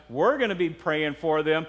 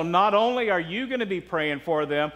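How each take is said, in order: First: "we're" hit first, pitch then falling away; stress on we're. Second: "you" picked out with emphasis; stress on you. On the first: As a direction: punch "we're" as the answering contrast. Contrasts we with you. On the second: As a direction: lean on "you" as the first half of a contrast. Contrasts you with we. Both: Real, not acted.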